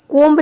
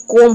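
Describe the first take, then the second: First: कोम्ब said "komb", b pronounced at the end; कोम्ब with the silent b wrongly spoken; wrong take with b sounded. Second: कोम said "kom", ending on m; कोम the right way, b dropped; correct silent b. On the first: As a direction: say कोम्ब ending on a clear b. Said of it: "आप कोम्ब नहीं बोल सकते हैं". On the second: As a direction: say कोम with no b after the m. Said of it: "ये कोम होता है". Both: Shown as a demonstration.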